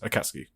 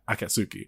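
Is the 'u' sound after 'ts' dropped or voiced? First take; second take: dropped; voiced. First: The u after ts is swallowed. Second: The u after ts is clearly voiced. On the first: This is how it sounds in fast everyday speech. "it just becomes Akatsuki" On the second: This is the careful, full pronunciation. "If you're pronouncing it correctly"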